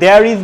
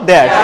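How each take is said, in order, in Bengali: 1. এটি দুটি পূর্ণ আলাদা শব্দ হিসেবে বলা হয়। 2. এটি একটি সংকুচিত একক উচ্চারণ হিসেবে বলা হয়। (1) "আমি দেয়ার ইজ বলবো না" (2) "বলবো দেয়ার্স"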